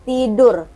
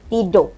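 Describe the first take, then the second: First: The final r is clearly pronounced. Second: The final r is faint, almost dropped. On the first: "Kalau orang Indonesia R-nya itu jelas kayak medok" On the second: "Kalau orang Malaysia tidur"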